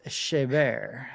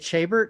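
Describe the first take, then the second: First: The name is pronounced the French way. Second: The name is pronounced the English way. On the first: The speaker calls it right. "but apparently it's Chabert" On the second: The speaker calls it wrong. "I always pronounced it Chabert. I never thought it was like French"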